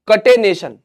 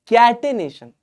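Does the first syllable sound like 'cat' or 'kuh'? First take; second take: kuh; cat. First: The first syllable is a short 'kuh' sound. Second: The first syllable sounds like 'cat'. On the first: The speaker calls it wrong. "ये कटे वटे नहीं है" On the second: The speaker calls it right. "कैट ए नेशन"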